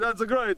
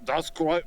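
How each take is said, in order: First: It is spoken in an Italian accent. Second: It is spoken in a Russian accent. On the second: "Try it in a Russian accent"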